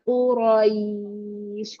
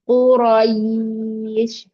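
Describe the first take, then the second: First: The vowel glide is soft and easy. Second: The vowel glide is forced and tense. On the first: The speaker calls it right. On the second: The speaker calls it wrong.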